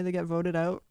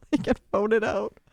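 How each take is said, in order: First: Said in the usual way. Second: Loud, punchy declaration; emphatic repeat. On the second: Real, not acted. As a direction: hammer it home, much louder. Emphatic repeat after laughing.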